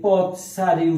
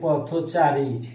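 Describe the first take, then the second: First: No vowel is heard after 'poth'. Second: An 'o' vowel is heard after 'poth'. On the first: The speaker calls it wrong. "এই পথ চারি উচ্চারণ হবে না" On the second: The speaker calls it right. "উচ্চারণ হবে পথচারী"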